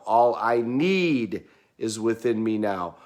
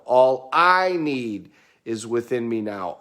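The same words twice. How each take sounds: First: "need" stressed, slow and falling at the end. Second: "I" stressed, slow and falling at the end. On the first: Coach repeating the incantation, slow stress on "need". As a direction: punch the word "need", slow and deliberate. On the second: Coach repeating the incantation, slow stress on "I". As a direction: punch the word "I", slow and deliberate. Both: Shown as a demonstration. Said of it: "we emphasize a different word".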